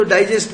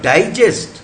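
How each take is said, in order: First: डाइजेस्ट with stress on the second syllable, -gest; डाइजेस्ट stressed at the end, as a verb. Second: डाइजेस्ट with stress on the first syllable, di-; डाइजेस्ट stressed up front, as a noun. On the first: Teacher shows the class the verb डाइजेस्ट, stress on -gest. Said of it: "डाइजेस्ट verb हो गया". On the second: Teacher shows the class the noun डाइजेस्ट, stress on di-. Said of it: "noun हो गया". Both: Shown as a demonstration.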